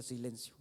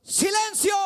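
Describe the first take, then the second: First: Low, soft mention of the command; understated quotation. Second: Loud, high command to the storm; shouted rebuke. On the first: Shown as a demonstration. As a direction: drop it low, only quoting the word. Repeats the command without acting it. (cita en voz baja y grave) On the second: Acted. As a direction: shout it as Jesus silencing the waves. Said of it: "reprendió al viento y dijo a las olas". (grito de reprensión, fuerte y agudo)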